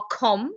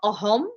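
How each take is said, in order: First: The middle consonant is a hard k sound. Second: The middle consonant is a plain breathy h. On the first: "It's not akhom" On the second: "It's not ahom"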